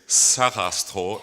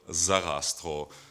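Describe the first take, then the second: First: The name begins with a voiceless s sound. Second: The name begins with a voiced z sound. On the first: This is the Austrian way of saying it. "I tend to pronounce things the Austrian way. So I will say Sarastro" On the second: This is the standard way of saying it. "instead of Zarastro"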